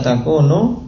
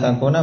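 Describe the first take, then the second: First: The word ends with a short 'u' vowel. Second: The word ends with a short 'a' vowel. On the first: The verb is in the indicative (raf') case. "An mukhaffafah min ats-tsaqilah. Sehingga fi'il mudhari' setelahnya marfu" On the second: The verb is in the subjunctive (nasb) case. "kita katakan an harfu masdarin wa nasbin"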